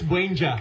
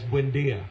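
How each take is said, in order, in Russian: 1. Имя заканчивается на слитный звук 'jah'. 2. Имя заканчивается на отдельный звук 'dee-ah'. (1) "that's Buenja" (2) "it is known as Buendia"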